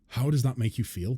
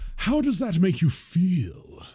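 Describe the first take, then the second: First: It is said in an ordinary voice. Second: It is said in a posh put-on voice.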